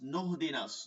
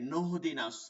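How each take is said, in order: First: The word begins with a linked 'nah' sound. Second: The word begins with a linked 'nah' sound.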